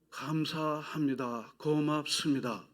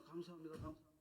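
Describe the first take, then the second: First: Slow, drawn-out 감사합니다 and 고맙습니다; slow thanks. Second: Door greeter voice. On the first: Shown as a demonstration. Preacher modelling thanks for the church, slow and drawn out. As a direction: stretch each syllable of 감사합니다 gently. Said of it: "계속해서". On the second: Retold or imitated. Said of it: "감사 조언에 발만 띄우면요".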